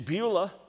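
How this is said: It is said with an English pronunciation. "we're used to it in its English pronunciation"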